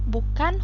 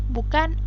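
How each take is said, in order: No difference in how they are said.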